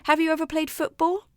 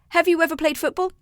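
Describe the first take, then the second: First: There is a pause after the question. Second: It rushes on with no pause after the question.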